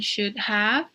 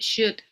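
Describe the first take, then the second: First: Both words are said fully and separately. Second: The words are run together in a short form. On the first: "instead of saying should have" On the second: "we often uh, use the shortened version"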